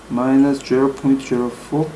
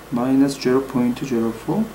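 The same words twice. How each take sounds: The two takes are said the same way.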